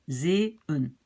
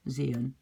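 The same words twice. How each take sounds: First: "zeeën" broken into zay, then un; teacher's careful two-part "zeeën", restarting on the last syllable; split syllables. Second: Said in the usual way. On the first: Shown as a demonstration. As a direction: pull "zeeën" apart at the two dots. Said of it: "je commence une nouvelle syllabe". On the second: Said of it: "Donc je prononce zeeën".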